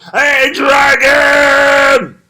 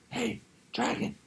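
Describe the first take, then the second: First: It is shouted very loudly. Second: It is whispered very softly.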